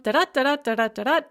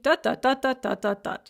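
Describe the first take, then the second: First: Chanted "da-da", weak then STRONG; iambic rhythm. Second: Chanted "da-da", STRONG then weak; trochaic rhythm. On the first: Teacher recaps the iamb for students, "da-DA" rhythm. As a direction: hit every second da in "da-da", like a drumbeat. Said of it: "So remember, iamb". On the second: Teacher recaps the trochee after the iamb, "DA-da" rhythm. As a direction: hit the first da of each "da-da", let the second drop. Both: Shown as a demonstration.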